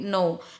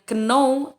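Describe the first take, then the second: First: The k sound at the start is silent. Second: A k sound is pronounced at the start. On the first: The speaker calls it right. "tapi know" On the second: The speaker calls it wrong. "bukan know"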